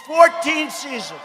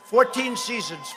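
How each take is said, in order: First: "Fourteen" drawn out slowly and raised high; slow, higher, punching "Fourteen"; emphatic repeat. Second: Said in the usual way. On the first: Real, not acted. Boasting to the crowd of his show's run, emphatic repeat.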